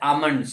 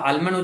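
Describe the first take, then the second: First: The L sound is left out of the word. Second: The L sound is pronounced in the word. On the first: The speaker calls it right. "એલ silent છે, આમંડ છે" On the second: The speaker calls it wrong. "એનો આલ્મંડ ઉચ્ચાર કરે છે"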